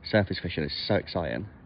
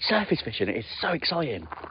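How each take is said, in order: First: It is said in a flat, low-energy voice. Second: It is said in a lively, energetic voice. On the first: The speaker calls it wrong. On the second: The speaker calls it right.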